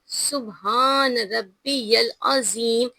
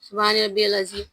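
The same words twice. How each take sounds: First: Each sound is pronounced carefully and fully. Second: The sounds are rushed and not fully pronounced. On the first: The speaker calls it right. "ये correct pronunciation है" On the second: The speaker calls it wrong. "लोग क्या कहते हैं"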